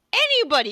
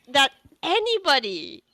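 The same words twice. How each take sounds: First: "anybody" pitched very high and loud; strong emphasis on "anybody". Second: "anybody" raised high with a falling end; emphasis on "anybody". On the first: Game master hyping the rope web, "anybody" high and loud. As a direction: punch "anybody" hard, high then falling. Repeats the word with more force. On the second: Game master praising the rope web, "anybody" raised and falling. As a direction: lift "anybody" moderately for emphasis. First take of repeated emphatic word. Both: Acted.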